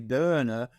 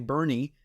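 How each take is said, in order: First: The name is pronounced the German way. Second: The name is pronounced the local Texan way. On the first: "if you pronounced it in the in the German way" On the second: "they say Bernie in Texas"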